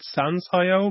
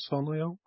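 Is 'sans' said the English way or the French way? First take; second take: English; French. First: Sans is said the English way, with a clear s. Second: Sans is said the French way, sounding like son. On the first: "I would pronounce it SANS.io" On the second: "you have more of a little French thing going on there"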